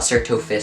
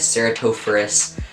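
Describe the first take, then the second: First: The name is said with four syllables. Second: The name is said with five syllables. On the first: The speaker calls it wrong. "not Ceratophus" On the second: The speaker calls it right. "I've been saying it wrong"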